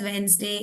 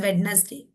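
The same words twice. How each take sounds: First: Wednesday with silent d, Wens-day; correct pronunciation. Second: Wednesday with the silent d sounded, Wed-nes-day; wrong pronunciation. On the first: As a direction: say Wednesday in two parts, dropping the d. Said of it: "we call this as Wednesday". (Wednesday में d silent, वेंसडे) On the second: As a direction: say Wednesday in three parts, voicing the d. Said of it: "we do not call this as Wednesday". (Wednesday में d बोलकर, वेड-नेस-डे) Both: Shown as a demonstration.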